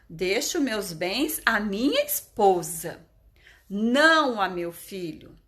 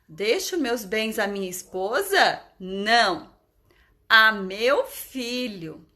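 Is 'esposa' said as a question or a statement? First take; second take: statement; question. First: Esposa flows on without a question rise. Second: The voice rises on esposa, as a question.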